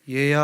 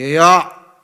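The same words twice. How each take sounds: First: The call sounds gentle and friendly. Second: The call sounds angry and stern. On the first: The father needs something from the child. "아빠가 나를 뭔가 필요해서 부르시는 거예요" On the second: The father is upset and about to scold. "아마 이거 뭔가 분명히 화가 났구나"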